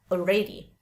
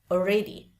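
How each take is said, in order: Both takes have the same delivery.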